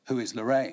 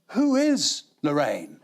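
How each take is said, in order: First: It is asked as a plain, literal question. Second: It is asked as a deep, musing question.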